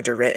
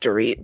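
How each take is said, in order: First: Dorit with a short i, ending like "it"; short-vowel pronunciation. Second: Dorit with a long ee, ending like "eet"; long-vowel pronunciation. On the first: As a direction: say Dorit to rhyme with "bit". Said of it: "going back and forth between calling her". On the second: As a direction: say Dorit to rhyme with "feet". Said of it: "calling her Dorit and just Dorit". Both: Shown as a demonstration.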